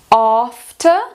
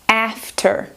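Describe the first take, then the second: First: It has a long British 'a' vowel. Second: It has a short American 'a' vowel. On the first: "Em britânico" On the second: "Em americano"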